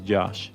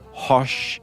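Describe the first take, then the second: First: The name starts with a J sound. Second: The name starts with an H sound. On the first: "the only right way to say it is Josh" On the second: "or Hosh"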